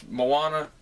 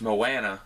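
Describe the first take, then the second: First: Moana as mo-AH-na, pitched up; first pronunciation. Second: Moana as mo-ANN-a; short "a" as in "can" in the middle of Moana; alternate pronunciation. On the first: Vlogger asking viewers to choose, broad-ah pronunciation. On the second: Vlogger asking viewers to choose, short-a pronunciation. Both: Shown as a demonstration. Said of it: "Let me know in the comments".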